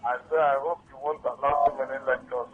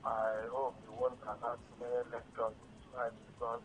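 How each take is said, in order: First: Repeating it louder; to someone hard of hearing. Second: Faint and hard to hear; softly, half to yourself; quiet. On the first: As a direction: say it again, louder. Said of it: "Can you talk louder, please?". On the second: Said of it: "I cannot hear you clearly". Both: Real, not acted.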